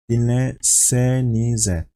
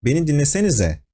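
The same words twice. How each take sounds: First: Dinlesenize drawn out slowly, each syllable spaced; slow and deliberate. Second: Mild angry snap on Beni dinlesenize, quick and higher; a teacher losing patience, snapping Beni dinlesenize fast. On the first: A teacher naming the plural form, slowly. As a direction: spell out Dinlesenize slowly to the class. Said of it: "teacher is talking to the group". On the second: A teacher scolding a chattering class, mildly angry. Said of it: "you can maybe hear the anger tone". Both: Shown as a demonstration.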